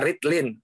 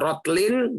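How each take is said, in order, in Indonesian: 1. Vokal pertama adalah bunyi i. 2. Vokal pertama adalah bunyi o. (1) "bisa dibaca ritlin" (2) "Bisa dibaca rotlin"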